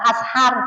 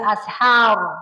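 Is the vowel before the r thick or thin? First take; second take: thin; thick. First: The vowel is thin, with the mouth open. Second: The vowel is thick, with the mouth rounded. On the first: The speaker calls it wrong. "jangan ashar, tiba mulutnya jangan dibuka" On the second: The speaker calls it right. "bacaan tafkhim. Membacanya dengan tebal"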